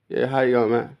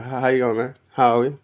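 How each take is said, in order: First: Relaxed Australian "how you going, man", a bit louder; casual Australian greeting. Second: Louder Australian "how you going", called out; loud Australian greeting. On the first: Explaining how we talk here, a loud Australian greeting. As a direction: toss off an Aussie hello to a mate. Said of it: "That's how we speak now". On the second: Showing how locals greet, a loud Australian hello. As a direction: greet a mate across the room, Aussie style. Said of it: "That's how we speak now, yo, man". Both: Retold or imitated.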